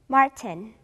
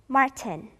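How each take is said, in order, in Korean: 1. 이 이름은 영어식으로 발음해요. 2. 이 이름은 영어식으로 발음해요.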